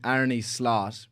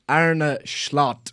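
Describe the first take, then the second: First: Slot begins with a plain s sound. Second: Slot begins with an sh sound. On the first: The speaker calls it wrong. "which is on paper what it actually looks like" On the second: The speaker calls it right. "I have been told rapidly by my Dutch followers that it's"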